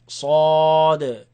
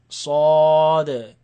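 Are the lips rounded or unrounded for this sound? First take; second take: unrounded; unrounded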